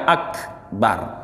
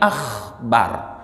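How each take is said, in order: First: The k is a crisp stop in the mouth. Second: The k becomes a raspy sound in the throat. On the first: The speaker calls it right. "Sehingga kita baca akbar" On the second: The speaker calls it wrong. "berubah makhraj menjadi akhbar"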